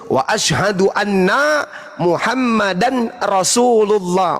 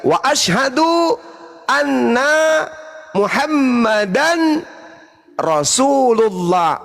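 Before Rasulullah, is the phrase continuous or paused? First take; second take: continuous; paused. First: Muhammadan runs straight into Rasulullah without pause. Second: There is a pause after Muhammadan. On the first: The speaker calls it wrong. "kalau saya lanjut" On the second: The speaker calls it right. "menunggu orang yang bersyahadat mengucapkan Muhammadan baru kita lanjut Rasulullah"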